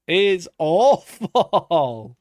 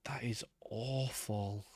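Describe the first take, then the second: First: Louder, very slow and stretched; loud dragged-out groan of disgust; drawn-out exclaim. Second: Breathy whisper, slowed; hushed horrified whisper. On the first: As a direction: wail the word out in disgust. Same verdict, now drawn out. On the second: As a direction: whisper it in disbelief. Whispered reaction to ugly terrain. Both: Real, not acted.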